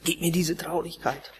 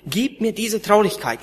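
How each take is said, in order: First: Softer, offhand mock prayer; glib mock prayer. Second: Earnest begging prayer, a bit higher; pleading prayer. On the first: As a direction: toss off the prayer without meaning it. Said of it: "Es kommen strahlende Gesichter rein". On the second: Retold or imitated. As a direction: beg God for sorrow, with feeling. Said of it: "betteln und zu schreien".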